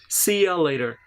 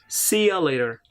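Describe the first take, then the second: No difference in how they are said.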